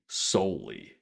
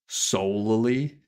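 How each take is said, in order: First: The L sound is short, like one L. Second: The L sound is held long, like two L's.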